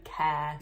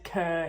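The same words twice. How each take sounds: First: "care" with an open air vowel; standard "care". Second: "cur" with the vowel of "her"; accented "care". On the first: Vlogger correcting her accent for viewers, standard "care". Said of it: "instead of". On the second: Vlogger owning up to her accent, "cur" for care. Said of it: "I know my accent, guys. I know I said". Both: Shown as a demonstration.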